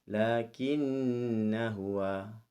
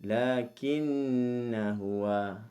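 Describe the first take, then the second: No difference in how they are said.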